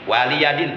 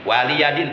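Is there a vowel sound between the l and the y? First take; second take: yes; yes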